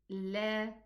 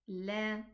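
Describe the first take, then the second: Both takes have the same delivery.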